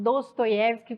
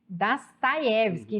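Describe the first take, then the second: First: The unstressed o vowels sound like o. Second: The unstressed o vowels sound like a. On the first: This is how Brazilians usually say the name. "como a gente fala" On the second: This is how Russians say the name. "Você falou que leu, né"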